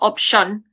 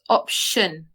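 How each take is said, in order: First: The final syllable is said strongly and heavily. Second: The final syllable is said lightly and softly. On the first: The speaker calls it wrong. "not option" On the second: The speaker calls it right. "it's like a lighter emphasis"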